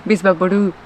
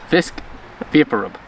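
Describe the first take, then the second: First: BISVAPORU as "bees-bah-poh-ROO"; Spanish pronunciation. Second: VISC VAPOR RUB as three separate English words; English pronunciation. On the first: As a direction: say Bisvaporu as one run-on word. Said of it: "how do you say it". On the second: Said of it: "I'm gonna say it in English". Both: Shown as a demonstration.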